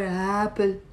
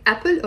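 First: "apple" begun with an h-like breath instead of a catch; breathed onset. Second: "apple" begun with a clean glottal stop; glottal stop onset. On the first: Teacher contrasting for students, "apple" with a breathed start. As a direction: slide breathily into "apple", like "happle". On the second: Teacher asking students which they say, "apple" with glottal stop. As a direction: start "apple" with a catch in the throat. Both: Shown as a demonstration. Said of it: "Do you say apple or apple?".

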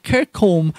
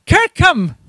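First: "Kirkholm" said as written, full "holm" ending; "Kirkholm" with a clear, unreduced "-holm"; as spelt. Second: "Kirkham" as KIRK-um, second syllable reduced; "Kirkham" pronounced the local way, KIRK-um; proper local pronunciation. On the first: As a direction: read "Kirkholm" by its spelling, with a rounded second syllable. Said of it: "it looks like Kirkholm". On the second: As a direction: say "Kirkham" high and falling, with a weak "-um" ending. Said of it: "properly pronounced". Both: Shown as a demonstration.

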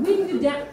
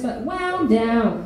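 First: "winded" said with a short i, as in wind and breeze, rhyming with "tinted"; trying "winded" for the car window, unsure; unsure word. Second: "wound" said slowly with the ow sound, rhyming with "sound"; corrected word. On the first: Looking for the word for the car window, says "winded". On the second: Correcting herself to "wound" for the car window, slow. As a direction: settle on "wound" and draw it out slowly. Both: Real, not acted. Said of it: "I don't know what the, what the word is".

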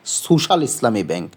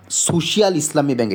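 First: সোশ্যাল in two syllables, so-shal; correct pronunciation. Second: সোশিয়াল in three syllables, so-shi-al; mistaken pronunciation. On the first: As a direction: run সোশ্যাল together as "SU-shal". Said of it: "ওরা বলে কি". (সোশ্যাল, "সু-শাল" দুই ধ্বনিতে) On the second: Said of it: "কখনোই বলে না এটার নাম সোশিয়াল". (সোশিয়াল, "শি-আল" আলাদা করে) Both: Shown as a demonstration.

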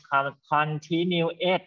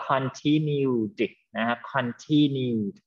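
First: "continued" misread with -ed as a separate "et"; continued with extra syllable. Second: "continued" drawn out, -ed only a closing d sound; continued in three syllables. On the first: Teacher shows what is not needed, "continued" with -ed as its own syllable. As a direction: stretch "continued" and tack on a wrong extra syllable. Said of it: "ไม่ต้อง con-, continued นะ ไม่ต้องนะ". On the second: Teacher models the right reading, "continued" slowly in three syllables. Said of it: "มันจะอ่านว่า continued". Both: Shown as a demonstration.

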